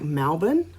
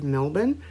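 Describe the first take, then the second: First: The first vowel sounds more like 'a'. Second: The first vowel sounds like a plain 'e'.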